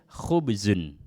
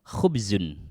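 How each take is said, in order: No difference in how they are said.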